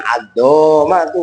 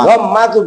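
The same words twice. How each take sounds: First: A vowel is stretched out and drawn long. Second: The vowels are kept short, not drawn out. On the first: The speaker calls it wrong. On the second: The speaker calls it right.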